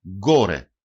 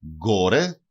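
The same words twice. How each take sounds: First: Γκόρε with a hard g start; teacher demo of γκόρε; example word. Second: Γκόρε again, slowly, hard g; teacher repeats γκόρε. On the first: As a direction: say γκόρε clearly, gore. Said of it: "Παράδειγμα". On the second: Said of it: "Γκόρε σημαίνει πάνω". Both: Shown as a demonstration.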